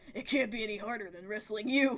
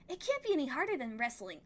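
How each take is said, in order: First: It is said in Vase's voice. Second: It is said in another character's voice.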